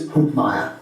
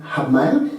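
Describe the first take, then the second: First: The name is said with an Austrian pronunciation. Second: The name is said with an Australian pronunciation. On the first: "In Austria, it's" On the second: "In Australia, we say"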